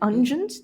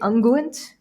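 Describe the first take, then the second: First: It uses her own everyday pronunciation of the word. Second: It copies the narrator's posh British pronunciation. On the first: This is how the speaker herself pronounces it. "Isn't it ungent?" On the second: Someone else pronounces it this way. "He would say unguent"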